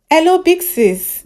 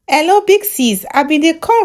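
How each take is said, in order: First: High, slow drawn-out greeting; doctor caller greeting the host, high and slow; high slow hello. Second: High eager hello to the host; bright caller greeting. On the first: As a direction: stretch the hello out, pitched up. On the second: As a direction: greet the host like a fan on air. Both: Acted.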